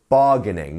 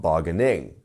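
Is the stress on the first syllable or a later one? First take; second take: first; later. First: The stress is on the first syllable. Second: The stress is on a later syllable. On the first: The speaker calls it right. "we have our stress here, right at the start of the word" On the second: The speaker calls it wrong. "not bargaining"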